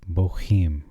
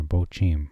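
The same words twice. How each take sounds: First: "bochim": bo-HEEM, the middle sound a breathy h; first pronunciation. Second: "bochim" said as "bo-chim", with a hard ch like in church; "bochim": bo-CHEEM, a crisp ch in the middle; alternate pronunciation. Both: Shown as a demonstration. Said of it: "however you want to pronounce that".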